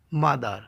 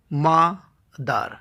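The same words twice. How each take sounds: First: Said in the usual way. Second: "মাদার" slowly split as মা, দার; two separate beats in "মাদার", pause between; syllable by syllable. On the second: Shown as a demonstration. Teacher showing a disyllable, saying "মাদার" in two slow parts. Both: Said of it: "দুইবারে উচ্চারণ করতে হয়".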